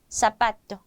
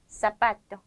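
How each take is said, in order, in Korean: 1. z는 날카로운 s 소리로 발음합니다. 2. z는 날카로운 s 소리로 발음합니다.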